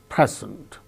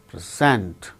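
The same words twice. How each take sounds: First: The stress is on the first syllable. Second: The stress is on the second syllable. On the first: It is used as a noun. "The first syllable gains stress" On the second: It is used as a verb. "the second syllable gains stress like present"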